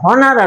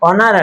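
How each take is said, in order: First: The word starts with an audible h sound. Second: The word starts with a vowel, no h sound. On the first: The speaker calls it wrong. "এটা হনার আসবে না" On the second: The speaker calls it right. "এটা অনার আসবে"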